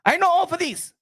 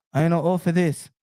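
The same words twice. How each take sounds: First: High, raised-pitch take of the line; Pacquiao impression. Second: Same line dropped low; Pacquiao impression, lower. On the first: Boasting as Pacquiao, high take. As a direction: say I know all for this pitched high. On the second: Boasting as Pacquiao, low take. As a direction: say I know all for this low and steady. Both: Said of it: "I be Mario Barrios".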